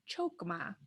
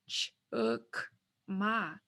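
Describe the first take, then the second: First: The first vowel sounds like 'oh'. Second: The first vowel sounds like 'uh'. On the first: The speaker calls it wrong. "It's not chokma" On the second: The speaker calls it right. "now you've got the correct pronunciation of chukma"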